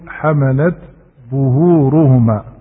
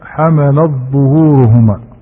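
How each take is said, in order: First: The t is pronounced clearly before the dh. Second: The t merges into the following dh sound. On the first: The speaker calls it right. "ولكن يقول حملت ظهورهما فيظهر التاء" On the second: The speaker calls it wrong. "لا يدغمها في الظاء، لا يقول مثلا حملت ظهورهما"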